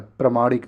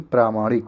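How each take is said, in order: First: प्रमाणिक with short "pra"; wrong short a. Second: प्रामाणिक with long "praa"; correct long aa. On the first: Teacher rejects the spelling, short "pra" in प्रमाणिक. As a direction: keep the first vowel short in प्रमाणिक. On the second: Teacher corrects the spelling, long "praa" in प्रामाणिक. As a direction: stretch the first vowel in प्रामाणिक. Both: Shown as a demonstration. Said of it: "प्रमाणिक नहीं".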